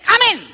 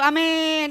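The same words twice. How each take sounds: First: The word is said short and quick. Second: The word is drawn out long.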